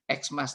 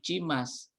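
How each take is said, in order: First: The word begins with an 'eks' sound. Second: The word begins with a 'k' sound. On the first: The speaker calls it wrong. "tapi sebetulnya bukan Xmas ya" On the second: The speaker calls it right. "Cimas betulnya ya, bukan Xmas"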